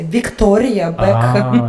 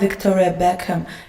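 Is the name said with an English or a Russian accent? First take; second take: Russian; English. First: The name is said with a Russian accent. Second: The name is said with an English accent. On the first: The name is said the usual local way. "can you say just [name]?" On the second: The speaker was showing off her English. "I was like saying it with accent"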